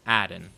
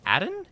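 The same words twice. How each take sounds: First: "Adon." said low with a flat falling end; settled tune. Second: "Adon?" tried out with a high rising tune; questioning tune. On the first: Streamer trying out the boss name, settling it with a fall. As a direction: state "Adon." as final, dropping low. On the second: Streamer trying out the boss name, asking it rising. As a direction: test "Adon?" as a question, pitch climbing at the end. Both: Shown as a demonstration. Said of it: "It's Adon or Adon".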